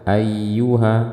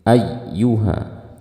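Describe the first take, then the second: First: Even pitch with no extra stress added. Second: Raised pitch and extra stress on the ya sound. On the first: "Kalau yang biasa" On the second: "kita perlu menaikkan intonasi suara dan menambahkan tekanan pada huruf ya. Seperti ini"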